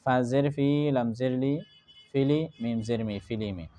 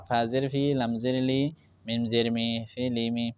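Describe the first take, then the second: First: Measured spelling with "ফিলি" blended midway, falling on "ফিলিমি"; blending two first. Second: Even run of "ফা জের ফি, লাম জের লি, মিম জের মি", then "ফিলিমি"; blending all three. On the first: Teacher showing how to join two syllables first, stepwise spelling. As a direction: spell "ফা জের ফি, লাম জের লি", join as "ফিলি", then finish "ফিলিমি". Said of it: "পয়লা দুইটা মিলাইবা, মিলাইয়া উচ্চারণ করবা".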